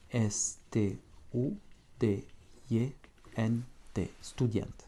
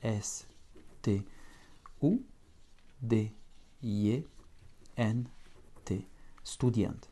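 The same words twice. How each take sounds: First: The letters are spelled out at a faster pace. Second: The letters are spelled out at a slower pace.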